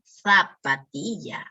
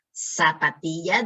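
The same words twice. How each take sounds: First: Zapatilla with th, "thapatilla"; Spanish z. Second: Said in the usual way. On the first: Shown as a demonstration. Teacher makes students hear the z change: zapatilla with th. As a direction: put a lisped th on the z of zapatilla. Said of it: "escuchen el sonido, cómo va cambiando". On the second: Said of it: "En vez de decir zapatilla".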